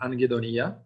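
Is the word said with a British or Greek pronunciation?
Greek. The word is said with a Greek pronunciation. "in a Greek language, it sounds like anhedonia"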